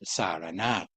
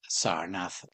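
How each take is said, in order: First: The name is said with three syllables. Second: The name is said with two syllables.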